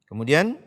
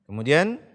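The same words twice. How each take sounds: Both takes have the same delivery.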